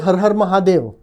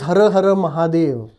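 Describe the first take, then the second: First: Each Har ends on the consonant r. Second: Each Har ends with a short vowel. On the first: This is how Hindi speakers say it. "in Hindi you would say" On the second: This is how Marathi speakers say it. "in Marathi it is"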